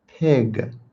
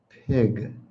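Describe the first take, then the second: First: The word is said as pig. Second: The same.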